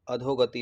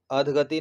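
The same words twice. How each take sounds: First: अधोगति said as 'adho-gati' with a clear o after dh; right spelling said aloud: अधोगति, 'adhogati'; correct form. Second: अधगति said as 'adh-gati' with no o vowel; wrong spelling said aloud: अधगति, 'adhgati'; wrong form. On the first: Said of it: "अधोगति होता है". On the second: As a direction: say अधगति the wrong way, without the o after dh. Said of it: "अधगति नहीं होता". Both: Shown as a demonstration.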